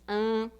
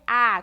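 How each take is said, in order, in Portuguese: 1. A vogal é fechada e nasal. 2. A vogal é aberta e oral. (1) "ela nunca pode ser fechada, como em algum caso aí na língua portuguesa" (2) "com esse som aberto"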